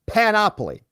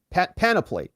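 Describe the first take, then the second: First: "panoply" said pan-OP-oly, OP pitched high; stress on second syllable. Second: "panoply" said PAN-uh-plee, weak middle vowel; stress on first syllable. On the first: Correcting a word for viewers, "panoply" stressed pan-OP-oly. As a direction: punch the OP in "panoply". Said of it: "the emphasis". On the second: Trying the word for viewers, "panoply" stressed PAN-uh-plee. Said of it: "correcting, uh, the, the emphasis". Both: Shown as a demonstration.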